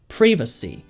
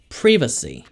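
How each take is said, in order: First: It is said with a British accent. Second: It is said with a British accent.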